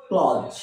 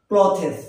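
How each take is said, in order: First: ক্লজ in one syllable; ক্লজ with buzzed ending, no th; correct pronunciation. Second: ক্লথেস in two syllables; ক্লথেস with th and hissed s; common mispronunciation. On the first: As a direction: say ক্লজ as "kloz", low. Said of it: "এর আসল উচ্চারণ". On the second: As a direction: say ক্লথেস as "klo-thes". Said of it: "আমরা এটাকে কি বলি?". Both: Shown as a demonstration.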